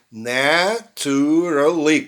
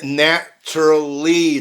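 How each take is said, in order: First: Drawn-out "naturally", na-tu-ra-ly; unreduced, slow "naturally"; students' four-syllable naturally. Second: "naturally" in three beats, na-tru-ly; slow but reduced "naturally", na; native three-syllable naturally. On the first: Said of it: "quatro sílabas". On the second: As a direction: drop a vowel from "naturally". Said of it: "ouve três sílabas". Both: Shown as a demonstration.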